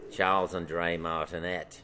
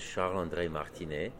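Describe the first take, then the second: First: It is said in an Australian accent. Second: It is said in a French accent.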